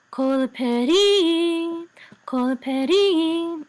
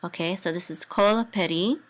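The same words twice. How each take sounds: First: "kol peri" chanted slow and high; cantillation chant. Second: Said in the usual way. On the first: Shown as a demonstration. Teacher chants the phrase for student, slow cantillation. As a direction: sing "kol peri" on the munach trope. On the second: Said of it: "this is a munach".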